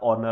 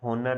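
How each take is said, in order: First: The word begins directly with a vowel sound. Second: The word begins with an audible h sound. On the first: The speaker calls it right. "ऑनर का एच जो होता है वो silent होता है" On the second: The speaker calls it wrong. "होनर नहीं होता"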